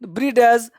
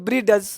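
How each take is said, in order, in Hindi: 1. अंत से पहले एक साफ़ 'd' की ध्वनि बोली जाती है। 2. अंत से पहले एक साफ़ 'd' की ध्वनि बोली जाती है।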